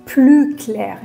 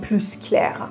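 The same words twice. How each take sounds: First: The final s of plus is silent. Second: The final s of plus is pronounced. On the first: The speaker calls it right. "میگیم" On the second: The speaker calls it wrong. "نمیگیم ... تلفظش اشتباهه"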